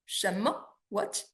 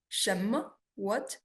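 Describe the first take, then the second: No difference in how they are said.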